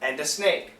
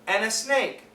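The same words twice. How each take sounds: First: The D sound is kept and linked forward. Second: The D sound in 'and' is dropped. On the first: "we can also keep the D sound, and we link it into the A" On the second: "the N sound could cancel the D"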